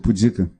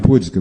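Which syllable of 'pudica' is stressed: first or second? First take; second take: second; first. First: The stress is on the second syllable. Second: The stress is on the first syllable. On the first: The speaker calls it right. "é pudica ... é um paroxítona" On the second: The speaker calls it wrong. "não é pudica"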